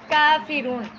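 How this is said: The word is said in one smooth flow. The speaker calls it right. "اس میں ہم ایک فلو سے پڑھتے ہیں"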